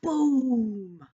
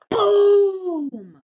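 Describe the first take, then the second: First: Booming again. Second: Booming. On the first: Teacher repeating boom for a child with feeling, a loud boom. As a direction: boom called out loud and high. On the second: Teacher showing a child how to read boom with feeling, a loud boom. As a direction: boom shouted high and very loud. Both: Shown as a demonstration. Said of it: "say it with feeling".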